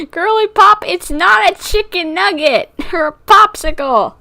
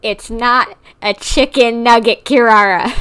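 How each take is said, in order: First: Squealing scold. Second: Laughing scold. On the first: Repeats scolding, higher and louder. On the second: Scolding cat through laughter. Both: Real, not acted.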